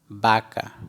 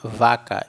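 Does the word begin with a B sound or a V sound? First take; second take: B sound; V sound. First: The word begins with a B sound. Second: The word begins with a V sound. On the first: The speaker calls it right. "e sim baca, porque o V tem som de B" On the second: The speaker calls it wrong. "nós não vamos ler vaca"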